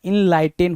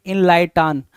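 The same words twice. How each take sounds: First: इनलाइटेन ending in a short "en"; correct pronunciation. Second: इनलाइटान said with a full "aan" at the end, as it is misspelt; wrong spelling-based pronunciation. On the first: Teacher giving students the correct word, ending in "en". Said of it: "इनलाइटेन होता है". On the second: Teacher sounding out the misspelt word for students, with a long "aan". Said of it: "इनलाइटान जैसा कुछ नहीं होता है". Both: Shown as a demonstration.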